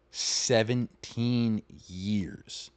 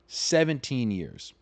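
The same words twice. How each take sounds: First: "seventeen years" stretched very slowly; drawn-out emphasis. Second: "seventeen years" slowed, in one connected phrase; slow, unbroken "seventeen years"; emphatic repeat. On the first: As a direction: draw out each syllable of "seventeen years" in disbelief. Stresses how long they were married. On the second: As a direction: restate "seventeen years" firmly without breaking it up. Repeats the figure, less drawn out. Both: Real, not acted.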